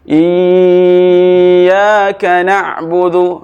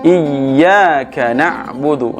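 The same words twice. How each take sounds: First: The doubled sound is held too long. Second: The doubled sound is kept short. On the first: The speaker calls it wrong. "itu namanya dilamakan, tidak boleh lama di sana" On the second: The speaker calls it right. "tidak boleh lama"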